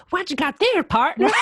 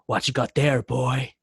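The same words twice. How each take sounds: First: High, loud, exaggerated Southern American twang; mock his hammed-up Southern American accent, laughing. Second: Understated angry challenge; mildly angry biker. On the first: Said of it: "didn't have to say it like". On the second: Shown as a demonstration. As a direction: demand it with a touch of anger. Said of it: "supposed to come in really angry".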